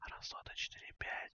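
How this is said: It is spoken in a whisper. "А сейчас я хочу вам рассказать что-то шепотом"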